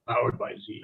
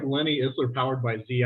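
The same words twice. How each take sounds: First: Lower, half-hearted monster truck announcer; a light stab at a booming truck-rally promo. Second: Said in the usual way. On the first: Retold or imitated. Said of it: "I always have the monster truck voice".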